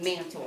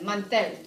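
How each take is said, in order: First: It is said like the English word mantle. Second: It is said with Spanish pronunciation. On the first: The speaker calls it wrong. "make sure you're not pronouncing it mantle" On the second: The speaker calls it right. "repitan, mantel"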